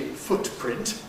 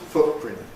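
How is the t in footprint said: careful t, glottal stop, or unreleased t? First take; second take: careful t; glottal stop. First: The t is said fully and carefully. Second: A glottal stop replaces the t. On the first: "that's very fussy, uh, old-fashioned and careful" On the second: "with glottal stops"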